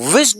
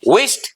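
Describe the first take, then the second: First: The word ends with a d sound. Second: The word ends with a t sound. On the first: The speaker calls it wrong. "विश्ड नहीं" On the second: The speaker calls it right. "The right pronunciation would be"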